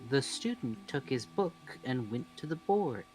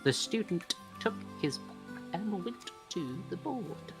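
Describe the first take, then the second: First: The matching sounds between words merge into one. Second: The matching sounds between words are pronounced twice. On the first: The speaker calls it right. "So you'll say" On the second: The speaker calls it wrong.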